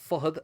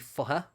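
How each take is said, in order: First: The name ends with a 'd' sound. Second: The name ends in a vowel sound.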